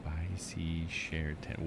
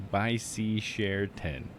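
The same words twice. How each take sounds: First: Soft, slow, lower-pitched repeat; quietly sounding out. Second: Very slow, word-by-word reading; sounding it out. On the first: Streamer puzzling over chat's phrase, quietly sounding out. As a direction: say each word slowly to yourself. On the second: Streamer testing what chat's phrase sounds like, slowly. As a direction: stretch out each word at normal volume. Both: Shown as a demonstration.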